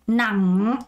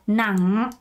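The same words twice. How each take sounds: Both takes have the same delivery.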